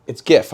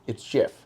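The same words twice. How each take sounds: First: "gif" with G as in "gift"; hard G. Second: "gif" said with a J sound; soft G. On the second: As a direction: say "gif" like "jiff". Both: Shown as a demonstration. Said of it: "Was it gif or gif?".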